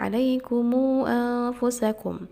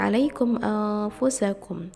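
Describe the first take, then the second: First: The m is followed by a long u vowel. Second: The m ends without a following vowel.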